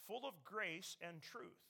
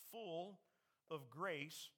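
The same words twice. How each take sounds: First: "truth" set apart slowly and deliberately; slow down and land firmly on "truth"; stress on TRUTH. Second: Said in the usual way. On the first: Shown as a demonstration. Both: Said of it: "I'm gonna emphasize the word truth".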